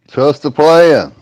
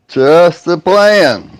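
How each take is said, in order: First: It is said flatly, without enthusiasm. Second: It is said with more enthusiasm.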